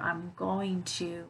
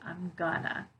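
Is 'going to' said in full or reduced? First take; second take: full; reduced. First: Each word is said fully and separately. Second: The words are reduced and run together.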